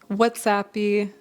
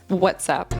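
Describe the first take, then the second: First: The word ends with an extra vowel sound. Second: The word ends abruptly on its final consonant. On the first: The speaker calls it wrong. "adding an extra syllable or an extra sound to the end" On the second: The speaker calls it right. "We pronounce it more abruptly"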